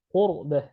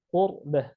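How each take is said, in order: No difference in how they are said.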